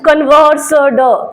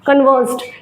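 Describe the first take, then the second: First: The final d is pressed hard and separate. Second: The final d is light and effortless. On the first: The speaker calls it wrong. "अगर आप बहुत जोर से बोले" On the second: The speaker calls it right. "उसको धीरे से बोलिएगा"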